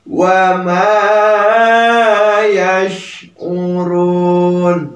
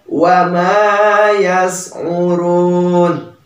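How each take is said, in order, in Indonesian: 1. Konsonan tengahnya adalah bunyi sh yang terbuka. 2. Konsonan tengahnya adalah bunyi s yang tipis. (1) "yang tepat ... Jadi ada angin keluar ya" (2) "Jangan malah membacanya ... kurang tepat"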